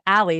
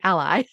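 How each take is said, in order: First: It sounds like the girl's name Allie. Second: It sounds like the ordinary word ally. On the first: It refers to a person named Allie. The speaker calls it wrong. "my daughter has a friend named Allie. So I immediately said Allie" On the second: It refers to being a supporter. The speaker calls it right. "it's about being an ally. So it has to be ally"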